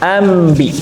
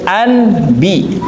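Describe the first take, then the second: First: An m sound comes before the b. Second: An n sound comes before the b. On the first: "jadi huruf mim, ambi" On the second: "contoh tadi anbi, nunnya diganti"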